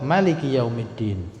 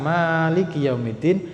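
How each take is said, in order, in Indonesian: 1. Vokal pertama pada Maliki pendek. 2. Vokal pertama pada Maliki panjang. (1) "dibaca dengan mubalaghah" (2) "dia biasa"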